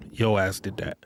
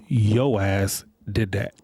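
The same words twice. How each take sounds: First: Said in the usual way. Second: Slow, each word pressed down: "Yo ass did that"; slow emphatic. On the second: Shown as a demonstration. Telling the ladies off, slow and emphatic. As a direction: lean on "Yo" and draw out the whole line. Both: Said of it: "repeated for emphasis".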